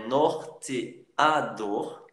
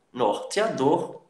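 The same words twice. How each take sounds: First: "norteador" slowly, one beat per syllable; syllables separated. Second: Said in the usual way. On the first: Shown as a demonstration. Teacher separating syllables for students, slow "norteador". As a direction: break "norteador" into nor, te, a, dor. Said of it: "Você separa aqui". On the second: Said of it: "Exemplos de polissílabos".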